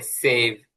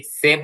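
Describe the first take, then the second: First: সেভ drawn out with an English "ei" glide; careful English pronunciation. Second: Said in the usual way. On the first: Shown as a demonstration. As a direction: say সেভ slowly as "seiv", like English save. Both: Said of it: "সেভ না বলে সেভ".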